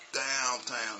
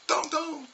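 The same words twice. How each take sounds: First: Said in the usual way. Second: 1 class repeating. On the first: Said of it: "I get everybody to say". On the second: Retold or imitated. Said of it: "They go".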